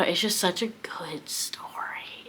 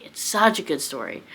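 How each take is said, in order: First: Slow, breathless whisper of awe; hushed whisper. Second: Said in the usual way. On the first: Real, not acted. Reader gushing to viewers about a beloved book, whispered. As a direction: whisper it like a cherished secret.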